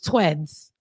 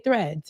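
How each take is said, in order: First: The word begins with a t sound. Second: The word begins with a th sound. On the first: "and it was tweds" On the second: "they were trying to say threads"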